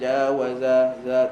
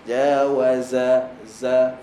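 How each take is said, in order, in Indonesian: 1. Bunyi z diucapkan lemah tanpa desis. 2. Bunyi z diucapkan dengan desis yang jelas.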